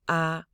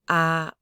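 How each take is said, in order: First: The vowel is held flat on the lowest pitch. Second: The same.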